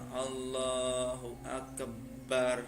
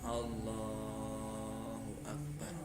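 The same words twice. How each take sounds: First: The b sound in Akbar is held doubled. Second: Only Allah is drawn out; Akbar stays short. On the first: The speaker calls it wrong. "tidak boleh mentasydid lafadz baknya" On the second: The speaker calls it right. "yang boleh dipanjangkan hanya Allahnya saja"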